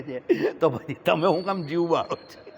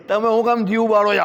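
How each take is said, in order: First: Said in the usual way. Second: "તમે હું કામ જીવ બાળો છો?" pressed harder, with "કામ" standing out; a gentle scolding that drives the point in; emphatic repeat. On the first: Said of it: "repeats it louder". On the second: Shown as a demonstration. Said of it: "repeated question".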